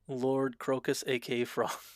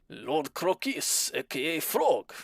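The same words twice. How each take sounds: First: It is said in his plain accent. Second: It is said in a put-on French accent.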